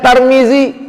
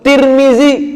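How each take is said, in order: First: The first syllable has an a vowel. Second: The first syllable has an i vowel.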